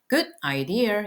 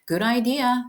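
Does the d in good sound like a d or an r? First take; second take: d; r. First: The d in good is a clear d. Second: The d in good sounds almost like r. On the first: "good idea 이러도 하셔도 되지만" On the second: "t가 거의 r처럼 들려요"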